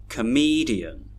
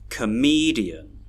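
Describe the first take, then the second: No difference in how they are said.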